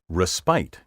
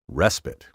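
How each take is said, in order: First: The stress is on the second syllable. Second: The stress is on the first syllable. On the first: The speaker calls it wrong. "often mispronounced" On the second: The speaker calls it right. "stress this word on the first syllable"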